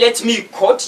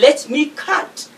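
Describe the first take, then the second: First: The vowel sounds like the one in cot. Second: The vowel is a short central uh sound. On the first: The speaker calls it wrong. "you are C O T" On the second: The speaker calls it right. "But you say let me cut"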